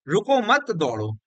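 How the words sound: The pause comes after the second word.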